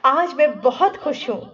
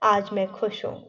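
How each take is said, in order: First: The voice sounds happy and lively. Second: The voice sounds flat and joyless. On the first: The speaker is truly happy. The speaker calls it right. "वो खुशी हमारी आवाज से दिखनी चाहिए" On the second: The speaker does not seem happy at all. The speaker calls it wrong. "तो आपको लगेगा ही नहीं कि ये व्यक्ति खुश है"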